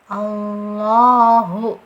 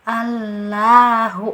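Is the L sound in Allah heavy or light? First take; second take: heavy; light. First: The L is heavy, with a deep, full sound. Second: The L is light, with a thin sound. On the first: The speaker calls it right. "Jadi harus uh, tebal bunyinya" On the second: The speaker calls it wrong. "bukan baca ... itu keliru ... tarkik yang tipis"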